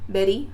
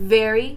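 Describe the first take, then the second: First: The word sounds accented. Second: The word sounds native-like. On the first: "You can say very or whatever" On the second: "You don't have to pronounce it very"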